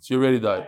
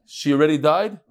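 First: "She already died." falling on "already" and "died"; "She already died." stated flat and settled; "She already died." closed with a fall; as a statement. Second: "she already died?" rising on "died"; "she already died?" asked with a rise at the end; "she already died?" lifted into a question on "died". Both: Shown as a demonstration. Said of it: "depends how, where the emphasis is".

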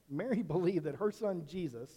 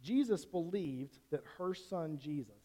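First: Corrects "Mary" with a quick laugh; laughing at own slip, then carries on; laughing correction. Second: Says the wrong name first, then catches it; preacher trips over "Jesus" instead of "Mary"; slip of the tongue. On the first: Preacher laughs off the mix-up with the congregation, light chuckle. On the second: Preacher misspeaks the name to the congregation, plain slip. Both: Real, not acted. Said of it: "I think I said that wrong".

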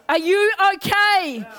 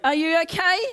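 First: Slower and louder, leaning on okay; pressing the congregation, slow and emphatic; emphatic, drawn-out question. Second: Said in the usual way. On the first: Acted. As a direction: stretch it out and push the okay. Preacher repeats the question, building.

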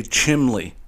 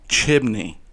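First: "chimley" with an L in place of the N; mispronouncing chimney. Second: Said in the usual way. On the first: Retold or imitated. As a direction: slowly say "chimley", CHIM-lee. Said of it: "They say chimley". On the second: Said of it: "They don't say chimney".

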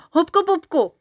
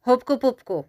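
First: High, loud, insistent shout; excited high-pitched outburst; racing to outdo. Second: Raised-pitch counter-proposal; disagree, countering with a higher voice; mildly insistent objection. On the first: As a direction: blurt it out loudly to beat the other one. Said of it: "aby Kamínka předběhl". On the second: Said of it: "nesouhlasil s Žilkou Pilkou Kamínek Ramínek". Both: A narrator's reading.

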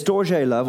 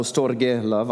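First: "storge" said in a put-on Greek accent as stor-zhay; lightly put-on Greek accent, ending "storge" with zhay; mock Greek accent. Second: Said in the usual way. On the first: Shown as a demonstration. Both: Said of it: "I just put on a bit of an accent".

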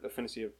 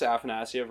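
First: "Afanasyev" as a-FIN-a-see-ev; second pronunciation option. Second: "Afanasyev" as AF-a-NASS-ee-ev; first pronunciation option. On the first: Offering the commentators' way of saying the name, "Afanasyev" as a-FIN-a-see-ev. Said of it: "I think it's Afanasyev". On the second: Weighing two ways to say a player's name, "Afanasyev" as AF-a-NASS-ee-ev. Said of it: "I don't know if it's". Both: Shown as a demonstration.

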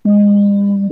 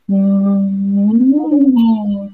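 First: An even, level hum through a straw; steady straw hum. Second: A hum that climbs in pitch, then eases back; rising straw hum. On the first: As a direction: hum gently into a straw on a single pitch. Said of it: "simplemente generar la vibración". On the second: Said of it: "voy subiendo la altura del sonido". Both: Shown as a demonstration.

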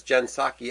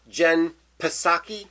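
First: "Psaki" as SAH-kee, starting on the S; silent P in Psaki. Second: "Psaki" with the P voiced as an extra syllable, puh-SAH-kee; P sounded in Psaki. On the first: Host reading a headline, "Psaki" said SAH-kee with silent P. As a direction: say "Psaki" with no P sound. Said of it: "the P is silent". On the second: Confused host asking about the name, "Psaki" said puh-SAH-kee. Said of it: "you don't pronounce the". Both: Shown as a demonstration.

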